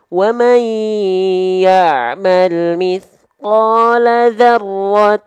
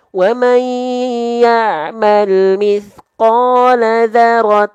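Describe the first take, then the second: First: The 'r' is doubled for a normal length. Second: The 'r' is single, with no doubling. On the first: The speaker calls it right. "isyarat dua, ini rohnya dengan tasdid yang pas" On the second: The speaker calls it wrong. "isyarat satu, itu rohnya tanpa tasdid"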